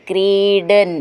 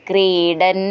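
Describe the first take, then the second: Both takes have the same delivery.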